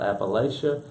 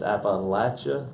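First: The stressed 'la' sounds like 'lay'. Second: The stressed 'la' sounds like 'latch'. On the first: The speaker calls it wrong. "not Appalachia" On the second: The speaker calls it right. "It's like I threw an apple at you"

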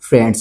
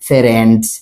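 First: The f and r are said together. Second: A vowel is inserted between f and r. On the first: The speaker calls it right. "যেমন ফ্রেন্ডস ফ্রেন্ডস" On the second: The speaker calls it wrong. "আপনি কইতে না ফেরেন্ডস"

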